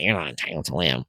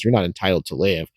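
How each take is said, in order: First: It is said in a put-on imitated voice. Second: It is said in the speaker's ordinary voice.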